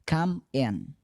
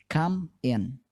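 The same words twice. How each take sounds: Both takes have the same delivery.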